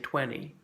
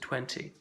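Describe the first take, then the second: First: The middle T sound is dropped. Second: The middle T sound is clearly pronounced. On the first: "Americans often say" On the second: "as opposed to"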